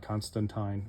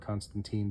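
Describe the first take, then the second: First: The name is pronounced the British way. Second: The name is pronounced the American way. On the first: "depending on whether you're British or American" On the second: "depending on whether you're British or American"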